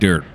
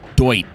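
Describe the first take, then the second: First: The vowel sounds like 'er', as in 'dirt'. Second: The vowel sounds like 'oy', as in 'doit'. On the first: "I'm saying dirt" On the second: "Why do I say it like that?"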